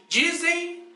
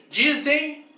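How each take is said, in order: No difference in how they are said.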